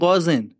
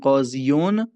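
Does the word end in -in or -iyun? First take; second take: -in; -iyun. First: The word ends with a short -in ending. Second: The word ends with a full -iyun ending. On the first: The speaker calls it right. "میگیم قازن" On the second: The speaker calls it wrong. "به جای اینکه بگیم قاضیون"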